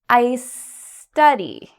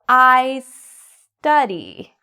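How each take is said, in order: Both takes have the same delivery.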